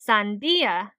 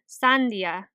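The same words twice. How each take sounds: First: The stress falls on the 'di' syllable. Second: The stress falls on a different syllable. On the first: The speaker calls it right. "put emphasis on the syllable where the accent mark is" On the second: The speaker calls it wrong. "instead of"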